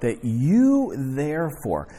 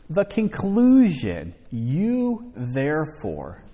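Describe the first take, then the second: First: "you" leaned on, slow; stressing you. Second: Slow, weighty title with You stressed; announcing the title. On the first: Preacher driving Paul's charge home to listeners, slow stress on "you". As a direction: linger on "you" in "that you therefore". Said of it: "he charges him, in other words". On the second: Preacher announcing tonight's title to the congregation, slow and weighty. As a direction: hit "You" hard and slow in "You Therefore". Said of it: "The title for tonight". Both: Shown as a demonstration.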